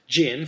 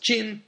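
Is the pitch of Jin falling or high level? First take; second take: falling; high level. First: The pitch falls sharply on the word. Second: The pitch stays high and level on the word. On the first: The name of the earlier Western and Eastern dynasty. "fourth tone, different character" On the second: The name of the Jurchen dynasty, meaning gold. "first tone, which means gold"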